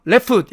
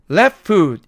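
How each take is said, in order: First: "left foot" run straight together as "레풋"; no rest between the words in "left foot"; wrong unpaused take. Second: "left foot" as le, short rest, foot; correct brief pause. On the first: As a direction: rush "left foot" into one word. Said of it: "이렇게 하지 않고". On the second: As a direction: hold a gap where ft drops in "left foot". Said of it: "left foot 이렇게 발음하는". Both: Shown as a demonstration.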